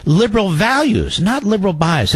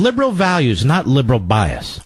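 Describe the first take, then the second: First: Liberal values and not liberal bias, sarcastic and higher; sneering echo of the quote; mocking repeat. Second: Said in the usual way. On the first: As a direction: repeat the slogan with scorn. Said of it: "Is that what you see". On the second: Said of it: "Right there in the introduction".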